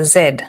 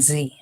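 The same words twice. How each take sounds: First: It is said the Kenyan way, like 'zed'. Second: It is said the American way, like 'zee'.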